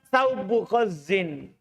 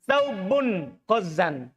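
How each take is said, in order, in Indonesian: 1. Kata pertama berakhir tanpa bunyi n. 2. Kata pertama berakhir dengan bunyi n. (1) "jangan tanwin yang pertama" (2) "Kalau antum jadikan tamis, tamis, tanwin"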